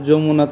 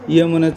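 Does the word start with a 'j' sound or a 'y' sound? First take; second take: j sound; y sound. First: The first sound is a Bengali 'j'. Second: The first sound is a Sanskrit-style 'y'. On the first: It is read the Bengali way. The speaker calls it wrong. "যমুনা তো বাংলায় হয়ে গেছে" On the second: It is read the Sanskrit way. The speaker calls it right. "সংস্কৃতের মতো উচ্চারণ করতে হলে"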